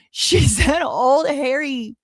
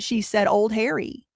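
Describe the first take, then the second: First: Slow, laughing through the words. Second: Said in the usual way. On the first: Real, not acted. Repeating phrase laughing in disbelief.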